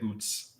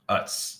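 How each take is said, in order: First: The vowel sounds like the oo in boot. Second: The vowel sounds like the u in cut. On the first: "a lot of people are pronouncing it Oots" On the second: "That's right"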